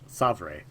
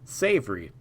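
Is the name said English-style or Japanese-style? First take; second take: Japanese-style; English-style. First: The name is said with a Japanese-style pronunciation. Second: The name is said as the English word. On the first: The name is treated as a Japanese name. "I'm gonna pronounce it in Japanese first" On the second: The name is taken as an English pun. "Savory's obviously a pun"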